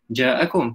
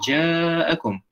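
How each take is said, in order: First: The first vowel is held short. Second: The first vowel is held long. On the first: The speaker calls it wrong. "tak boleh baca ja'akum" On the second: The speaker calls it right. "tapi kena panjang sikit"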